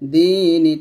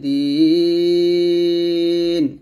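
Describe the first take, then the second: First: It ends with a short vowel after the n. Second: It ends on n with a lengthened vowel.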